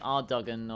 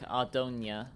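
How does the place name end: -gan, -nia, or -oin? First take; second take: -gan; -nia. First: The name ends with a 'gan' sound. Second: The name ends with a 'nia' sound. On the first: "you'd think it'd be Ardogan" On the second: "or like Ardonia"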